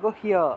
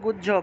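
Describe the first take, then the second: First: The word is said with Sanskrit pronunciation. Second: The word is said with Bengali pronunciation. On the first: "কিন্তু সংস্কৃত উচ্চারণ হবে" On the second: "বাংলায় বললে গুহ্য"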